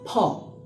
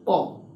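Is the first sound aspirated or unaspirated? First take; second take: aspirated; unaspirated. First: The p is released with a puff of air. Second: The p is released without a puff of air. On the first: The speaker calls it right. "with aspiration" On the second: The speaker calls it wrong.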